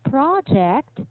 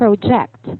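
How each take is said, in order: First: The stress is on the second syllable. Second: The stress is on the first syllable. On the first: It is used as a noun. "if you're referring to a noun" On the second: It is used as a verb. "The stress ... lies on the first syllable"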